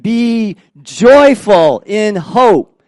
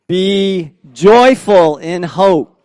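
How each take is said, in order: First: It is said with feeling and expression. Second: It is read plainly, without much expression. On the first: "now say it with meaning" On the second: "Let's just read it, first of all"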